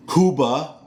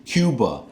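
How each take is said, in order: First: Cuba as KOO-bah; Spanish pronunciation. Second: Cuba as KYOO-buh; American pronunciation. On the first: Setting up his contrast, Cuba as KOO-bah. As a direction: say Cuba with a pure oo. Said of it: "I pronounce Cuba". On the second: Telling viewers his way, Cuba as KYOO-buh. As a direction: say Cuba with a y-glide. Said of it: "I pronounce". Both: Shown as a demonstration.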